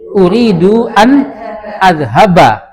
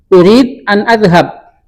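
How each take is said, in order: First: The final vowels of the words are pronounced. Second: The final vowels of the words are dropped. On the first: This is the formal reading form. "ini hanya sebatas disiplin penulisan dan bacaan" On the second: This is the relaxed spoken form. "boleh kita sukunkan semua"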